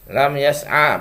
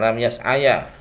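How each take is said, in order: First: The phrase ends on a plain 'a' vowel. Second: The phrase ends with an added 'ya' syllable. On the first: The speaker calls it right. "Lam yas'a bukan" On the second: The speaker calls it wrong. "bukan lam yas'aya"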